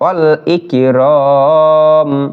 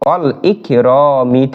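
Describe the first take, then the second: First: The word ends on a bare m consonant. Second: The word ends with a short i vowel. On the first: The reciter pauses at this word. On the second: The reciter continues without pausing.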